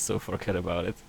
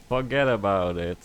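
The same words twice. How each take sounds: First: Said in the usual way. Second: Fuhgeddaboudit in a thick New York accent. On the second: Shown as a demonstration. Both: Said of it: "a thick New York accent".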